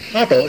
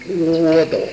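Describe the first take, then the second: First: The first syllable is pronounced 'a'. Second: The first syllable is pronounced 'wo'. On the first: The speaker calls it right. "你只能念阿" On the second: The speaker calls it wrong. "你一个小孩小名叫窝斗，有这样起小名的吗？"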